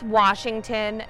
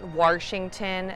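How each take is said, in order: First: The word is said without any R sound. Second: The word is said with an added R sound. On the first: The speaker calls it right. "it's Washington ... There's no R in it" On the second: The speaker calls it wrong. "not Washington"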